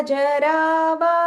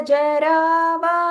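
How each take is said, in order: No difference in how they are said.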